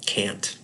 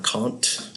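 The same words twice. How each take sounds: First: It is pronounced the British way. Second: It is pronounced the American way. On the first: "Brits call him Kant" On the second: "Americans call him Kant"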